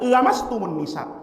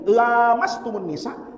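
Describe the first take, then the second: First: The vowel after the first L is short. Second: The vowel after the first L is long. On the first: "bacanya pendek" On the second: "baca panjang pakai lam alif mat tobi'i"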